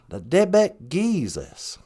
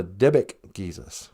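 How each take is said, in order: First: "Dybbuk Jesus" slowly, syllable by syllable, tibik giizis; slow Ojibwe tibik giizis. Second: "Dybbuk Jesus" said as Ojibwe tibik giizis, hard t, long ii. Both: Shown as a demonstration. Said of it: "we call the".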